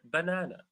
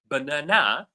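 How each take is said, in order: First: No syllable is stressed more than another. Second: The stress is on the third syllable. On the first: "it doesn't fall on any syllable" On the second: "third syllable"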